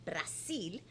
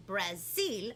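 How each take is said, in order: First: Brazil said the Portuguese way, Bra-SIL with a soft s, lower and softer; Brasil, Portuguese pronunciation. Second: Said in the usual way. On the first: Shown as a demonstration. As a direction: say Brazil as a Portuguese speaker would, bra-ZEEL. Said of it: "they speak Portuguese". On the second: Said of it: "or Brazil, they speak Portuguese".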